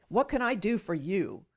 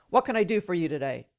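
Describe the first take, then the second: First: Said in the usual way. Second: Quick, sharp doctor's question; imitated sharp tone. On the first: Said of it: "how I hate that comment". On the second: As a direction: rattle it off curtly, like a brusque doctor. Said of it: "in a sharp tone".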